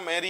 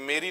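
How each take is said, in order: First: The first vowel is an open 'ai' sound. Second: The first vowel is a closed 'e' sound. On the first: The speaker calls it right. "मैरी है" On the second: The speaker calls it wrong. "ये मेरी नहीं है, मेरी मत पढ़ लेना"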